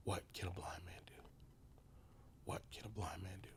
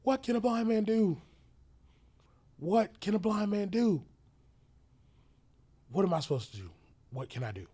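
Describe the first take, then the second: First: Whispered to himself, soft; inner whisper. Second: Desperate shouted questions, high and loud; emotional yelling. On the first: Blind man asking himself quietly, whispering. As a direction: ask yourself under your breath. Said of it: "I kept asking myself". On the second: Blind man yelling at his helper in despair. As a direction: yell it out in despair. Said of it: "I was just yelling". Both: Retold or imitated.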